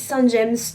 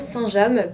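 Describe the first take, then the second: First: The name James is said the English way. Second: The name James is said the French way. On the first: The speaker calls it wrong. "j'ai dit Saint-James toute ma vie" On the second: The speaker calls it right. "on dit bien Saint-James puisque c'est le nom d'une ville en Normandie"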